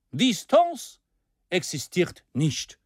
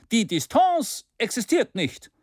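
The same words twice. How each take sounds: First: Distance lifted high, existiert nicht slow and firm; mild orator's emphasis; emphatic claim. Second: Distance pitched high and pushed out; mild mock cry; energetic cry. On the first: Acted. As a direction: hammer home that distance is nothing. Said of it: "Ton des Redners". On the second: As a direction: outdo the others in zeal. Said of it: "rief Maston energischer als die anderen".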